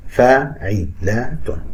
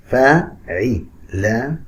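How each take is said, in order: First: فاعلات stretched very slowly, each beat held; drawn-out syllables. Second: فاعلات stretched very slowly, syllable by syllable; drawn-out syllables. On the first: Teacher repeating فاعلات slowly for students. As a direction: pull فاعلات apart slowly by its beats. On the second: Teacher stretching فاعلات slowly to show its syllables. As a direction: spell out فاعلات slowly by its beats. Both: Shown as a demonstration. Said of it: "كل طويل ما عدا رقم اثنين بيجي قصير".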